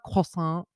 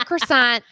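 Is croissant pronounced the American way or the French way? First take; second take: French; American. First: It is said with a French pronunciation. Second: It is said with a plain American pronunciation. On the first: The person is acting fancy. The speaker calls it wrong. "I hate when people get fancy" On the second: It is the ordinary everyday way. The speaker calls it right. "like the rest of"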